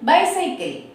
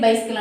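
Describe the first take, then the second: First: The word is said with three full syllables. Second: The word is squeezed into two syllables. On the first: The speaker calls it right. "But it's బైసైకిల్" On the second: The speaker calls it wrong. "మనం ఏంటంటే pronounce మామూలుగా ఫ్లోలో బైస్కిల్ బైస్కిల్ బైస్కిల్ అంటాం"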